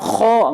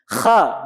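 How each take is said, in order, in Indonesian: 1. Vokal itu diucapkan dengan bibir membulat. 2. Vokal itu diucapkan terbuka, bibir tidak membulat. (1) "bukan kho, nggak gitu" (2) "Terbuka tanpa monyong"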